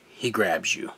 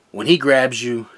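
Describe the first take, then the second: First: Softer repeat, falling away; quiet echo. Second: Louder, pressed first take; emphatic. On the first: Testimony to viewers, soft knowing repeat. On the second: Preacher-style testimony to viewers, emphatic. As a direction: lean hard into it. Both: Real, not acted. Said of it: "Because I'm telling you".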